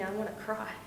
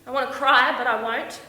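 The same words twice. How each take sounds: First: Hushed, tender admission; softly moved. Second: Loud, raised burst of hurt; sudden forceful distress; defiant upset. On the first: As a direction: drop to a soft, overwhelmed voice. Moved by his kiss. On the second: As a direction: push back the urge to cry. Fights tears after being abandoned. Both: Acted.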